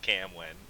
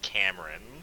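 First: The middle consonant is a W sound. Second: The middle consonant is an R sound. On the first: The speaker calls it wrong. "I fucking hate being called Camwin" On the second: The speaker calls it right. "There's an R in it"

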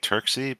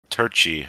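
First: The consonant after 'Tur' is a 'k' sound. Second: The consonant after 'Tur' is a 'ch' sound. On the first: This is how most people say the name. The speaker calls it wrong. "I think most people say Turksy" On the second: This is how the name is really pronounced. The speaker calls it right. "it's pronounced Turchi, according to the internet"

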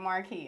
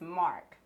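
First: The name is said with two syllables. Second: The name is said with one syllable. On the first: The speaker calls it wrong. "Everybody be saying like Marquee" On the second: The speaker calls it right. "but it's Mark"

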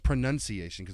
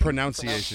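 First: The second syllable sounds like 'nun'. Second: The second syllable sounds like 'noun'. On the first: The speaker calls it right. "I don't think the O. ... Well, it's pronunciation" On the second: The speaker calls it wrong. "You said pronunciation, which I don't know if that's a British thing, but that's not how we say that"

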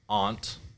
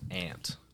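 First: The vowel is an open 'ah' sound. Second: The vowel is the flat 'a' of 'ant'. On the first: The speaker calls it right. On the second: The speaker calls it wrong. "not A-N-T"

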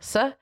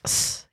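First: The s sound is made Scandinavian-style. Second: The s sound is made American-style. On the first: "Swedes, maybe Scandinavians, their S's are more like S" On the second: "whereas Americans are more like S"

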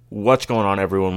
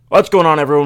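First: It is said with low energy. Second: It is said with high energy.

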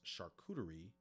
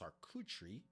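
First: The word has an American English pronunciation. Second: The word has a French pronunciation. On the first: "here in the United States is pronounced" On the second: "the French pronunciation is"

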